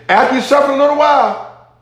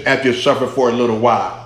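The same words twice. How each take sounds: First: "After you suffer a little while" pitched high throughout; emphatic verse reading. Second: Said in the usual way. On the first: Shown as a demonstration. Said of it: "the emphasis of that verse". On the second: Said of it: "this is in the emphatic position".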